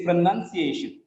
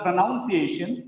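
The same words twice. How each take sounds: First: "pronunciation" as pro-nun-ci-A-shun; short "nun" in "pronunciation", stress on A; correct pronunciation, "nun". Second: "pronunciation" as pro-NOUN-ci-ation; wrong pronunciation, "noun". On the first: Teacher correcting a misreading, "pronunciation" with "nun" inside. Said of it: "It is pronunciation". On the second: Teacher showing a common mistake, "pronunciation" with "noun" inside. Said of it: "It is not pronunciation". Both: Shown as a demonstration.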